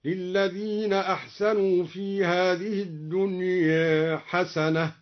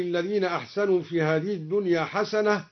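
First: "الدنيا" as ad-dunye, final vowel between a and e; slow recitation with a slightly tilted ending on "الدنيا"; taqlil. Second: Said in the usual way. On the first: Shown as a demonstration. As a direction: chant slowly, easing the end of "الدنيا" toward e. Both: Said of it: "قلل الدنيا".

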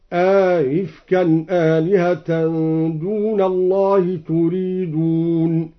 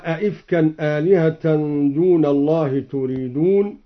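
First: "أئفكا" with a long aa, then a softened second hamza; slow chant, "أئفكا" opened as "aa-ifkan" with no hard stop. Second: Said in the usual way. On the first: Shown as a demonstration. Reciter showing Al-Duri's reading, "أئفكا" with inserted alif and eased hamza. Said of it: "بتسهيل الهمزة الثانية مع إدخال ألف".

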